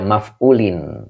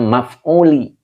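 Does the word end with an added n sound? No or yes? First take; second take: yes; no. First: The word ends with an added n sound. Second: The word ends on a vowel without n. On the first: The speaker calls it wrong. "Tidak maf'ulin" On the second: The speaker calls it right. "Jadi baca maf'uli"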